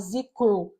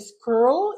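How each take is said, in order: First: The word begins with a z sound. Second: The word begins with a plain s sound. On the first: The speaker calls it wrong. "você falar z-crew, que aí é outra palavra" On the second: The speaker calls it right. "de ser screw"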